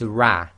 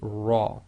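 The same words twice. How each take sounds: First: The r is light, with a spread, smiling mouth. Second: The r is heavy, with a full, rounded mouth. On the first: The speaker calls it wrong. "What you can't say is ra, ... you sort of make a smile" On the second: The speaker calls it right. "so this will be ra"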